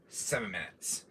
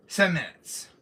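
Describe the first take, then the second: First: Low, softer villain murmur; Wesker voice. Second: Said in the usual way. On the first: Acted. Streamer muttering the countdown as his villain, low and soft. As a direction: savor it quietly like a schemer. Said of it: "I love doing my Wesker voice".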